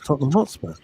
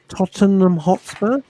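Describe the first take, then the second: First: The name is said at a normal pace. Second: The name is said slowly and deliberately.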